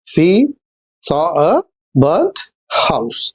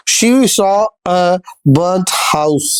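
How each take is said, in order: First: She, then saw a, then burnt house, each chunk set apart by pauses and said lower, with the weight on burnt; phrase split into chunks. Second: Said in the usual way. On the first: Shown as a demonstration. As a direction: break it into slow chunks and land on burnt. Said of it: "तो यहां पे देखिए". (She… saw a… burnt house को टुकड़ों में, burnt पर ज़ोर देकर) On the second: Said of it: "repeats phrase broken up".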